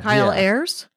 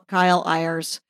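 First: The surname sounds like the word 'airs'. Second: The surname is said differently from the word 'airs'. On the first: The speaker calls it right. "like the plural of air" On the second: The speaker calls it wrong. "I ethnicked it up"

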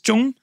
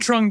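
First: The name is said with a Vietnamese pronunciation. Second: The name is said with an American pronunciation. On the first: "In Vietnam, the way you pronounce it is Trung"

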